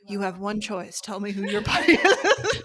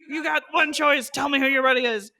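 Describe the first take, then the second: First: It is said a little more slowly. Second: It is said at a normal pace.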